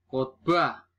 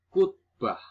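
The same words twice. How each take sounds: First: "Khotbah" with an o; standard pronunciation. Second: "kutbah" with u for o; nonstandard pronunciation. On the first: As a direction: say khot-bah for "Khotbah". (ucapkan "Khotbah" dengan o) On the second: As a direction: say kut-bah high and loud. (ucapkan "kutbah" dengan u) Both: Shown as a demonstration.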